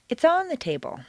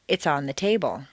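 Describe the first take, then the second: First: The stress falls on on. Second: The stress falls on table.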